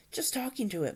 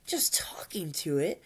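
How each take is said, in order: First: Higher, sheepish admission; mild acted embarrassment; embarrassed mumble. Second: Gasped, disbelieving echo; airy acted astonishment; astonished gasp. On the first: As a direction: own up sheepishly. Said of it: "mumbled Hiccup, very embarrassed". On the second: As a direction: repeat it as a stunned question. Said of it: "gasped Hi-, Fishlegs in astonishment". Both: A narrator's reading.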